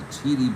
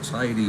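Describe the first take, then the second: First: The first vowel sounds like 'ee'. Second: The first vowel sounds like 'eye'. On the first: The speaker calls it wrong. "I said T I D Y with an E pronunciation" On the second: The speaker calls it right. "the words don't come out the way they're supposed to"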